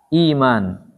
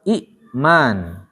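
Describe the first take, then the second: First: The first vowel is long with no glottal stop. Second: A glottal stop follows a short first vowel. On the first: This is the form actually used. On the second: This is the original underlying form.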